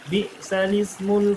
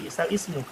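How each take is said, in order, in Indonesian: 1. Kedua kata menyambung tanpa hamzah. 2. Kata kedua dimulai lagi setelah hamzah. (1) "Jadi baca bi'salismul" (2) "Bukan bi'sal ismu"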